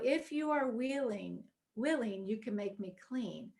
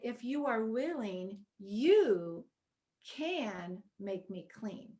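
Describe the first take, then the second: First: The word willing carries the strongest stress. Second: The word can carries the strongest stress. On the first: The request depends on whether he is willing. "I kind of always focused on the if you are willing part" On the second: There is basic faith that he is able. "But then I read it differently"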